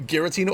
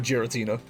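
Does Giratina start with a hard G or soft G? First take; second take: hard G; soft G. First: It begins with a hard G sound. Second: It begins with a soft G sound. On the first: "is it hard G for you" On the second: "or a light G for you"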